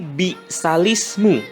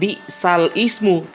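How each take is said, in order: First: The l runs straight into ismu without a stop. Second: A glottal stop separates bi'sal from ismu. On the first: The speaker calls it right. "tapi bi'salismu" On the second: The speaker calls it wrong. "Jadi bukan bi'sal ismu"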